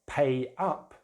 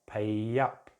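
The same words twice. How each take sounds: First: The words are said separately, without a linking sound. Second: A y sound links the two words together.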